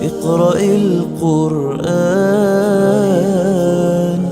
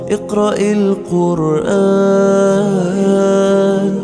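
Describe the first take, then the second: Both takes have the same delivery.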